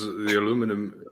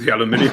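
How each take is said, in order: First: It is said with an American accent. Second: It is said with a British accent.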